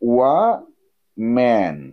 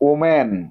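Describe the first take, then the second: First: The word begins with a 'wah' sound. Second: The word begins with a plain 'oh' sound. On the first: The speaker calls it right. "এটারে বলবে ওয়াম্যান" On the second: The speaker calls it wrong. "ওম্যান বলবে না"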